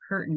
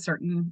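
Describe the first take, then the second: First: The word begins with a K sound. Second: The word begins with an S sound. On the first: The speaker calls it right. "So I tried the curtain K" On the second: The speaker calls it wrong. "C can make the S sound"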